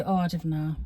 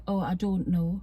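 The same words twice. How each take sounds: First: Oh, I don't know in broad Geordie, don't as "dinnae". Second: Put-on Oh, I don't know with clear don't know, softened accent; toned-down Geordie. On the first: Shown as a demonstration. Mother shows how Geordies would say it, broad Geordie. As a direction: drop into thick Geordie. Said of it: "we would say". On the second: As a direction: say it the telly-friendly way. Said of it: "she'll say".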